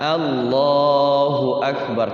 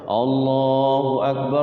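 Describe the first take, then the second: First: The first vowels sound like 'a'. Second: The first vowels sound like 'o'. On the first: The speaker calls it right. "fathah itu pakai a" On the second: The speaker calls it wrong. "Pakai oh"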